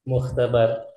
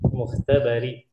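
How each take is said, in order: First: The word ends on the consonant r. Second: The word ends with a short i vowel.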